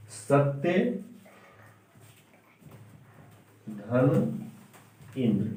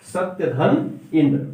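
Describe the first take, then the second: First: Each part alone with long pauses; teacher pulls the compound apart for pupils; split slowly. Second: Said in the usual way. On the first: Shown as a demonstration. Teacher splitting the word, slow and separated.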